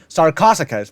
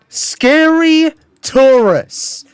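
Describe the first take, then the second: First: The name ends with a 'sicas' sound. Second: The name sounds like 'scary tourists'. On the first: "which is already not very great" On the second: "the absolute worst pronunciation"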